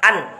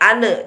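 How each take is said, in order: First: The syllable is pressed hard and stops cleanly. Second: The syllable ends with a bouncing extra vowel. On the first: The speaker calls it right. "langsung ditekan kuat" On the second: The speaker calls it wrong. "jangan sampai ada pantulan ane"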